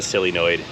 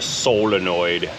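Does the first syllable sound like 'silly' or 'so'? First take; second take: silly; so. First: The first syllable sounds like 'silly'. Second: The first syllable sounds like 'so'. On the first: The speaker calls it wrong. "It's not a sillynoid" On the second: The speaker calls it right. "It's a solenoid"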